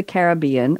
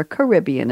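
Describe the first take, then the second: First: Caribbean with the stress on BE; stress on third syllable. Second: Caribbean with the stress on RIB; stress on second syllable. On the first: Host naming the pirate film, Caribbean stressed late on BE. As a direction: say Caribbean as ka-rib-BEE-an. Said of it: "or Caribbean, as some people say". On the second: Host giving the other way, Caribbean stressed on RIB. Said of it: "as some people say". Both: Shown as a demonstration.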